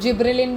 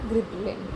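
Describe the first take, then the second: First: The word begins with a J sound. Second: The word begins with a hard G sound. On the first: "इसको जिब्रेलिन भी pronounce करते हैं कुछ कुछ" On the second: "जी या फिर जे"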